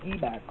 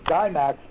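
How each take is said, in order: First: The name is said the French way. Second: The name is said the American way. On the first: The speaker calls it right. "Guimax is the French pronunciation" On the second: The speaker calls it wrong. "Some in the U.S. pronounce it Guimax"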